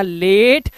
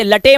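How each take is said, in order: First: लेट in one syllable, long 'ay'; लेट rhyming with 'gate'; correct reading. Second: लटे mis-read as 'la-tay'; लटे in two literal syllables; wrong reading. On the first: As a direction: say लेट with silent final e. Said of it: "इसे पढ़ना लेट". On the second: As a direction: sound the final e in लटे. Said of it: "इसे लटे मत पढ़ना". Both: Shown as a demonstration.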